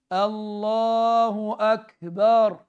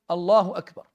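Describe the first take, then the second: First: It is said slowly, with a long drawn vowel. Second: It is said quickly, with a shorter vowel. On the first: "Si quelqu'un fait vraiment l'adhan lentement" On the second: "si je le dis sans euh, prendre de temps"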